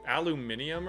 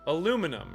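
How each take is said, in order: First: The word is said with an extra syllable, -nium. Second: The word is said with four syllables, ending -num. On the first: This is how some other people say it. The speaker calls it wrong. "some people say, like, aluminium or something like that" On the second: This is the only pronunciation the speaker has heard. The speaker calls it right. "I've only ever heard one pronunciation. It was aluminum"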